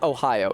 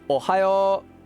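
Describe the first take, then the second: First: The first vowel glides like the English state name. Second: The first vowel stays even, as in Japanese. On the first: The speaker calls it wrong. "but it's not Ohio" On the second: The speaker calls it right. "It's Ohio"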